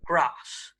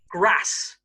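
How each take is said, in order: First: It is said in a southern English accent. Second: It is said in a northern English accent. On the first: "in the south" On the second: "in the north"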